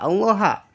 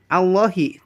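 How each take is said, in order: First: The word ends with an a vowel. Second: The word ends with an i vowel. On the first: The speaker calls it wrong. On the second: The speaker calls it right. "ha dibaca jr"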